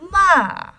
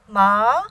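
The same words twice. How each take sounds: First: The pitch falls sharply from high to low. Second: The pitch rises from middle to high. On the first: "a straight fall from the top of your register to the bottom" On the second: "second tone, rising"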